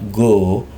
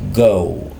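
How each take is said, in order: First: The vowel stays a single pure o. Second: The vowel glides from o toward oo. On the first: The speaker calls it wrong. "not go" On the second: The speaker calls it right. "O dan U keriting lagi. Maka dibacanya O"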